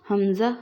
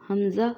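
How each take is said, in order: No difference in how they are said.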